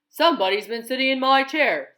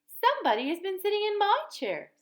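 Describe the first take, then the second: First: It is said in a great big voice. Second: It is said in a middle-sized voice.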